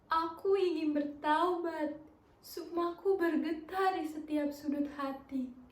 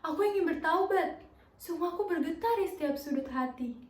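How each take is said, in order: First: It is said with a sad expression. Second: It is said with a fearful expression.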